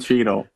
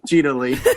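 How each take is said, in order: First: The name ends without an extra 'ee' sound. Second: The name ends with an extra 'ee' sound. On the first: The speaker calls it right. "It's Don Cheadle" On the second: The speaker calls it wrong. "same person that calls G- Don Cheadle, Cheadley"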